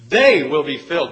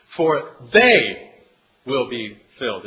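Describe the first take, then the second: First: "They" hit loud and bold, rest plain; stress on THEY. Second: "they" punched loud, then falling; stress on they. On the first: Preacher shows the Greek emphasis, loud on "They". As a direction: make "They" the capital-letter word. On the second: Preacher reading the beatitude, louder on "they". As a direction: lean hard on "they". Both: Shown as a demonstration. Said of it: "would be in capital letters or bold".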